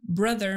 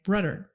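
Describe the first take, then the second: First: The middle consonant is a th sound. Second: The middle consonant is a d sound. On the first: The speaker calls it right. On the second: The speaker calls it wrong.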